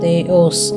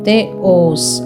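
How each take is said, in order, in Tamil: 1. இரண்டு அசைகளும் 'ய்' ஒலியுடன் சேர்ந்து ஒன்றாக நழுவிச் செல்கின்றன. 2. இரண்டாவது அசை முதல் அசையிலிருந்து தனியாகச் சொல்லப்படுகிறது. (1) "தேயோஸ் அப்படின்னு சொல்லாமல்" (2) "ஓஸ் அப்படிங்கிறது நம்ம தனியாக சொல்கிறனால"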